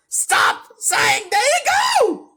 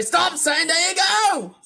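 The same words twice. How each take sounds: First: High, loud cracking shout; strained yell. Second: Higher shout, less forced; milder yell. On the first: Acted. Yelling at the streamer to stop his catchphrase. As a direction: screech the command. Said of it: "I think I was meant to say". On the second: Shown as a demonstration. Redoing the line with less voice acting, a milder yell. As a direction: say it as a real person would. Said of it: "less voice acting".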